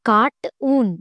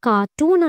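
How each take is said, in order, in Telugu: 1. t మొదటి syllable cart ని ముగిస్తుంది. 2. t రెండవ సిలబుల్ toon ని ప్రారంభిస్తుంది. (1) "కార్ట్ ఊన్ అని అనట్లేదు" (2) "కార్టూన్ అని ప్రొనౌన్స్ చేస్తున్నాం"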